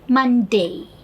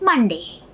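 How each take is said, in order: First: The final vowel glides from A toward E. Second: The final vowel stays steady without gliding. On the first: The speaker calls it right. "in English pronunciation" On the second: The speaker calls it wrong. "Indian languages pronunciation"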